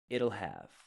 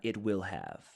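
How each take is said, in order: First: The words are contracted into one short syllable. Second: The words are said fully as separate syllables. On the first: The speaker calls it right. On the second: The speaker calls it wrong. "not it will have"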